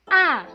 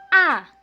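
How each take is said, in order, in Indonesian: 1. Nadanya jatuh tajam dari tinggi ke rendah. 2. Nadanya jatuh tajam dari tinggi ke rendah.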